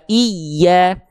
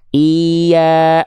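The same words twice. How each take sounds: First: The doubled consonant gets a strong, clearly felt push. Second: The word is said flat, without extra push. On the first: The speaker calls it right. "penekanannya kerasa banget" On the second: The speaker calls it wrong. "nggak cukup dibaca iya lempeng-lempeng aja"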